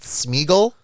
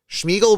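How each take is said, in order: First: The name begins with a plain 's' sound. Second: The name begins with a 'sh' sound. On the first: "Do I say it like that?" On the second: "there is not H in Schmeagle"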